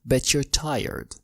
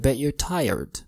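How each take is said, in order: First: The t and y merge into ch. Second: The t is a glottal stop before you're. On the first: "أو تقدر تعمل صوت الشا" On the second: "ال T كهمزة"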